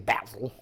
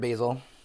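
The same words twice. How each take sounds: First: It is said in an English accent. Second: It is said in an American accent.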